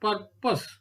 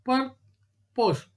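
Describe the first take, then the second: First: Said in the usual way. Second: PUR - POSE with a clear gap; syllable by syllable. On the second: Shown as a demonstration. Teacher showing a two syllable word, "Purpose" split apart. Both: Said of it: "These are all called two syllabic".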